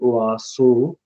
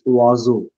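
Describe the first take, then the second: First: The middle consonant is a hissing s sound. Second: The middle consonant is a buzzing z sound. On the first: The speaker calls it wrong. "It's not oaso" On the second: The speaker calls it right. "It's oazo. Perhaps with Z"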